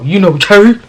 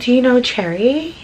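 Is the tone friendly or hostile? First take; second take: hostile; friendly. First: It is asked in a rough, hostile tone. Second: It is asked in a friendly, polite tone. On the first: A confrontational challenge. "his tone of voice, you guys, is not like a nice one" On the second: A polite, harmless question. "it's not like"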